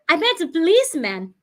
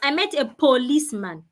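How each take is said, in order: First: The first vowel of policeman sounds like uh. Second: The first vowel of policeman sounds like oh. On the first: The speaker calls it right. "The O there sounds uh" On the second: The speaker calls it wrong. "The O there is not sounding O"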